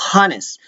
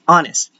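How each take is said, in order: First: The word begins with an audible h sound. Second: The word begins with a vowel, no h sound. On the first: The speaker calls it wrong. "We don't say honest" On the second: The speaker calls it right. "No H. We refer to it as honest"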